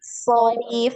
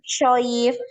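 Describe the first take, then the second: First: It begins with a heavy, hollow 's' sound. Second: It begins with a hushing 'sh' sound. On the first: The speaker calls it right. "soif, jangan shoif, tapi so" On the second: The speaker calls it wrong. "jangan shoif"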